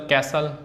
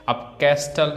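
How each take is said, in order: First: कैसल said "ca-sal" with no T at all; silent t. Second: कैस्टल said with the T pronounced, "cas-tal"; t sounded, wrong. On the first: Teacher giving students the right कैसल with silent T. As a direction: drop the T in कैसल, the correct way. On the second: Teacher showing students the wrong कैस्टल with the T. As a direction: sound the T in कैस्टल as the mistaken version. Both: Shown as a demonstration. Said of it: "टी silent है".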